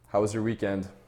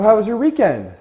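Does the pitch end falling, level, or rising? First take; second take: level; rising. First: The pitch stays level toward the end. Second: The pitch rises toward the end. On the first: The speaker addresses an equal. The speaker calls it right. "Now I'll show you even tonality" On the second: The speaker seems desperate for attention and acceptance. The speaker calls it wrong. "let me give you an example of inclining tonality"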